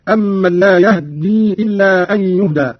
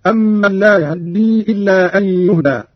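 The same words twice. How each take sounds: First: يهدي with a vowelless h before doubled d; slow recitation, no vowel after the h in يهدي; iskan. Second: يهدي with a snatched short "a" after the h; slow recitation, fleeting fatha on the h of يهدي; ikhtilas. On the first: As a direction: say يهدي as "yahddi", h fully still. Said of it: "الإسكان، وكل من الاختلاس والإسكان". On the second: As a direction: say يهدي as "yahaddi", the second vowel barely touched. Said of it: "والاختلاس". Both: Shown as a demonstration.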